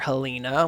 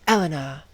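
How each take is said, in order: First: The name starts with an h sound. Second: The name starts directly with a vowel. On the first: The speaker calls it wrong. "that's not the right pronunciation" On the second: The speaker calls it right. "the proper French pronunciation"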